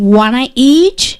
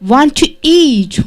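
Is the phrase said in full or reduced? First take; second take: reduced; full. First: The words are reduced and run together. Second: Each word is said fully and separately.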